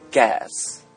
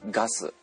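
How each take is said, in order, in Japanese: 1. 英語の発音で言われています。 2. 日本語の発音で言われています。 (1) "英語で言うとガス" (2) "日本語で言うとガス"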